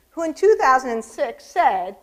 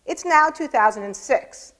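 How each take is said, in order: First: Said in the usual way. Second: "It's now two thousand and six" said slowly, with the stress landing on "now"; slow mock-solemn quote. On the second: Shown as a demonstration. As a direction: read the quote slowly and lean on "now" for a dry joke. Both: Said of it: "So he was off to a good start".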